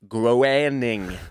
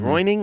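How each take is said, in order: First: The first vowel sounds like 'ay'. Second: The first vowel sounds like 'oy'. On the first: The speaker calls it right. "is how I was told it was pronounced" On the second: The speaker calls it wrong. "It looks like groining a little"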